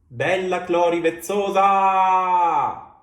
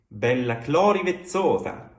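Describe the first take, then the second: First: The unstressed final syllables are drawn out long. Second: The stressed syllables are long, final ones short. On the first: The speaker calls it wrong. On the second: The speaker calls it right.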